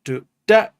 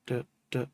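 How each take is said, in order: First: Do, da sung high and loud as accents; accented offbeat. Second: Ghost notes. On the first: Demonstrating offbeat accents to viewers, punchy syllables. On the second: Demonstrating offbeat ghost notes to viewers, soft syllables. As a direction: let da, da fall to a whisper-like ghost. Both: Shown as a demonstration. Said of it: "this is the offbeat".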